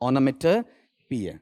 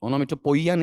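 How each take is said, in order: First: The ending sounds like 'pee-a'. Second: The ending sounds like 'poy-a'. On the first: The speaker calls it right. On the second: The speaker calls it wrong.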